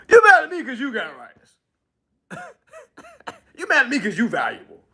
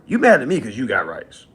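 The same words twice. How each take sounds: First: Laughing through the words; can't keep a straight face, laugh as you say it. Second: Said in the usual way. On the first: Real, not acted. Repeats line laughing.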